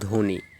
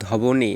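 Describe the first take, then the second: First: No 'b' sound follows the first consonant. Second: A 'b' sound follows the first consonant. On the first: The speaker calls it right. "এখানে বটা উজ্জ হয়ে যায়" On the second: The speaker calls it wrong. "আমরা কি বলি ধবনি না"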